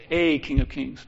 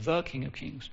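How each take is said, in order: First: "a king of kings" with the word "a" said as a full, stressed "ay". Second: "the king of kings" with "the" marked, quieter and falling; the rejected reading, "the" leaned on lightly; stress on the. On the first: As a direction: lean on "a" to set it against "the". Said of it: "Notice it says a king of kings". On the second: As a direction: contrast "the" with the "a" just stressed. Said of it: "not the king of kings". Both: Shown as a demonstration.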